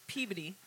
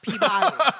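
First: The name is said the local way. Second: The name is said the outsider way. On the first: This is how residents say the name. The speaker calls it right. "we pronounce it Peabody" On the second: This is how people from elsewhere say the name. The speaker calls it wrong. "not Peabody"

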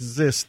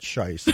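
First: The word begins with a z sound. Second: The word begins with an sh sound. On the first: The speaker calls it right. "An X is a Z" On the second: The speaker calls it wrong. "not Scheist"

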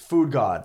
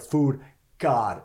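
First: Said run together as one word. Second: Said as two separate words. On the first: The speaker calls it right. "Food God is one word" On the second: The speaker calls it wrong. "So it's not like Food God"

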